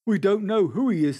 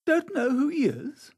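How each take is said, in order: First: Raised pitch and volume, falling at the end; firm statement. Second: High-pitched query, rising at the end; questioning echo. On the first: Gamekeeper informing Dorian, in a falling statement. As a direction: state "don't know who he is" firmly, with a falling tune. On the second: Dorian echoing the keeper, in a high questioning rise. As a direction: repeat "Don't know who he is" as a rising question. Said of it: "said Dorian listlessly". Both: A narrator's reading.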